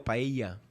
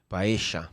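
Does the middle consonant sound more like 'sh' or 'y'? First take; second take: y; sh. First: The double L sounds like a 'y' sound. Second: The double L sounds like a 'sh' sound. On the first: This is how Spanish speakers say it. "Só que o espanhol fala paella" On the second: This is how Argentinians and Uruguayans say it. "O argentino e Uruguai fala paeja"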